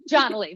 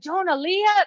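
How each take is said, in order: First: The name is said with fewer syllables, clipped. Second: The name is said with more syllables, drawn out. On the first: The speaker calls it right. "now, John Lee" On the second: The speaker calls it wrong. "I was like, I'm like, Jonah Leah"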